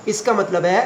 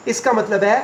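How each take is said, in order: Both takes have the same delivery.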